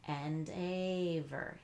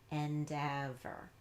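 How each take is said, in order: First: The second syllable has a long A vowel. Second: The second syllable has a short E vowel. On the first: The speaker calls it wrong. "if you tried a long A sound" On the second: The speaker calls it right. "change it to e, ev"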